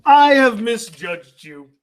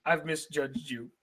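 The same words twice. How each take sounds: First: Slow, weighty admission; emphatic apology. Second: Low, much softer admission; hushed apology. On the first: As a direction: draw out each word in a solemn declaration. Solemn apology to the letter writers. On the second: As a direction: let the apology sink to a murmur. Same apology repeated, much softer. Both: Real, not acted.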